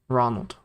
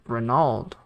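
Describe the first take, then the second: First: The name is said with an American accent. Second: The name is said with a Spanish accent.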